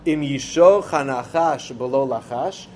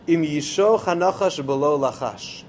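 First: It is said as a rhetorical question. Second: It is said as a plain statement.

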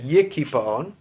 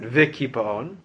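First: The word begins with a y sound. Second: The word begins with a v sound. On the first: This is how the verse is written. "That pasuk in Zechariah is written yikipaon" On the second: This is how the verse is read aloud. "even though we pronounce it vikipaon"

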